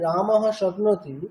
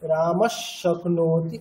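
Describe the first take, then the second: First: The first word ends with an h sound. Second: The first word ends with an s sound. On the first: The words are read separately, without joining. "ওটা তো একটা just মানে শব্দের spelling" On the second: The words are joined by the sandhi rule. "আমাদেরকে উচ্চারণ করতে হবে কোনটা, ওইটি"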